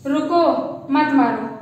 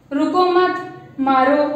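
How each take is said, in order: First: रुको set apart, then मत मारो together; rising रुको, pause, then मत मारो falling; pause after रुको. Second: रुको मत together, then मारो set apart; pause after मत. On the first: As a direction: break after रुको, run मत मारो as one phrase. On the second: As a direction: slowly, break after मत before मारो. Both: Shown as a demonstration. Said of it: "ऐसे पढ़ सकते हैं".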